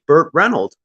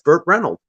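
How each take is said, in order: First: The surname ends with a D sound. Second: The surname ends with an S sound. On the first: The speaker calls it wrong. "if it was Burt Reynolds with a D and not a S, like that would sound strange" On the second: The speaker calls it right. "No, that's Burt Reynolds"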